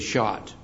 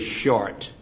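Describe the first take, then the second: First: The word is said in a Maine accent. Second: The word is said in a standard, non-Maine accent. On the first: "we say shot" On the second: "in Maine, we don't say short"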